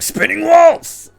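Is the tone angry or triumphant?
angry. It is said in an angry tone.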